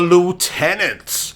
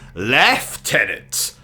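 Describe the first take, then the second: First: It is given the American pronunciation. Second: It is given a non-American pronunciation. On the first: The speaker calls it wrong. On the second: The speaker calls it right.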